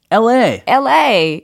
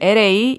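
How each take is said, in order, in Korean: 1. 이 단어는 생기 있게, 힘 있게 말했어요. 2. 이 단어는 밋밋하게, 힘없이 말했어요. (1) "LA 이렇게 예, 뭔가 좀 텐션 있게 이야기를 하면 좋을 것 같아요" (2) "LA 이게 아니라"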